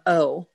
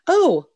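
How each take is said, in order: First: It is said flat and quiet. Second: It is said loud and exclaimed.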